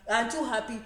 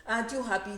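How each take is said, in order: Both takes have the same delivery.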